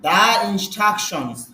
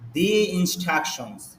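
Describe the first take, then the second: First: 'The' is said with a short 'uh' vowel. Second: 'The' is said with a long 'ee' vowel. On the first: The speaker calls it wrong. "দা হবে নাকি দি হবে?" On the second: The speaker calls it right. "তাহলে এটা দি উচ্চারণ হবে।"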